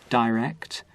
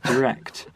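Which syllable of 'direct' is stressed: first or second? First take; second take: first; second. First: The stress is on the first syllable. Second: The stress is on the second syllable. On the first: "putting the, the stress first on the first syllable" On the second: "and then on the second"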